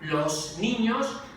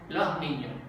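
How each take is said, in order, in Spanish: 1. La s al final de los se pronuncia completa. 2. La s al final de los se vuelve aspirada. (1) "se pronuncia la S y dicen" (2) "aquí en Andalucía decimos"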